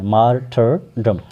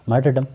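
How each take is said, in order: First: martyrdom broken into mar, ter, dum; slow teaching model of martyrdom, each syllable separate. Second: martyrdom run together in one quick go; quick, joined-up martyrdom; said quickly. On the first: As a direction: spell out martyrdom slowly by syllables. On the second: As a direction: say martyrdom fast, as one word. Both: Shown as a demonstration. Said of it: "जल्दी में".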